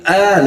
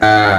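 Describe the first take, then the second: First: The vowel sounds even thinner and lighter. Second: The vowel comes from deep in the throat. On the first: The speaker calls it wrong. "lebih tipis lagi" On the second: The speaker calls it right. "yang benar"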